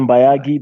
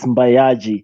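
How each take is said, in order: First: The last syllable starts with a G sound. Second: The last syllable starts with a J sound. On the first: This is how most people say the name. The speaker calls it wrong. "Most people call me Mbayagi because I mean, it's G I" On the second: This is the name's real pronunciation. The speaker calls it right. "the real pronunciation is Mbayaji"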